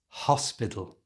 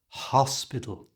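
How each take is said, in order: First: Only the first sound is whispered. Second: The same.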